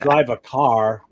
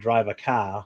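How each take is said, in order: First: It is said in a general American accent. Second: It is said in a Boston accent.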